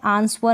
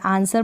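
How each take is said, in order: First: A 'w' sound is pronounced after the 's'. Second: No 'w' sound is pronounced after the 's'. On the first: The speaker calls it wrong. "आंसवर नहीं पढ़ेंगे" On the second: The speaker calls it right. "आंसर पढ़ेंगे"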